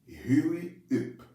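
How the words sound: It is said with a French accent. "Que seria a pronunciação dessa expressão em francês"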